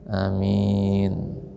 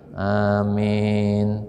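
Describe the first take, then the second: First: The first vowel is short, the m is single. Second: The long vowel leans toward an e sound. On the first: "Yang kedua itu dengan dipendekkan dan secara ringan" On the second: "Yang ketiga itu dibaca dengan bacaan imalah"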